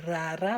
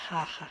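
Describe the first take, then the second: First: "rara" louder, with tongue-tapped R; correct tapped R. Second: "raja" with throaty H-like R; wrong pronunciation. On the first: Teacher correcting raja to the right sound, emphatic demonstration. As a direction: tap both Rs in "rara", firmly. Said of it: "you have the sound of R". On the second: Teacher warning against the wrong R, wrong-way demonstration. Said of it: "it's not a raja". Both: Shown as a demonstration.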